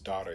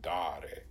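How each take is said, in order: First: The first vowel is short. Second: The first vowel is long. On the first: The speaker calls it right. "it's dare instead of" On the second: The speaker calls it wrong. "the long A"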